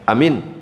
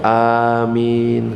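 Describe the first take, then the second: First: Both vowels are short. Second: Both vowels are long. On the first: It means trustworthy. "Pendek misalkan amin" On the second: It means grant our prayers. "Yang benar A-nya panjang, min-nya juga panjang"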